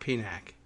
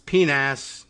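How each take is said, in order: First: The final C is said as a K sound. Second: The final C is said as an S sound. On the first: The speaker calls it wrong. "not PNAC" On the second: The speaker calls it right. "that's a soft C, and century should be pronounced correctly, and it's PNAS"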